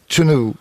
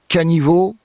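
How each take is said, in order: First: Three syllables starting with ch and ending in u. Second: Three syllables with a middle i sound, ending in o. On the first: "Et à Groix" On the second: "du côté de Guémené, caniveau"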